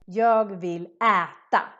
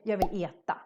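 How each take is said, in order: First: The first vowel of äta is open. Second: The first vowel of äta sounds like E. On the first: "the proper way should be" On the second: "in Stockholm we might say ... it sounds more like an E sound"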